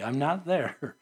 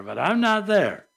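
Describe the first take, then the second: First: Said in the usual way. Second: Not there, with not pressed firmly; a firm, emphatic repeat of not there; stress on not. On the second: Shown as a demonstration. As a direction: lean hard on the word not.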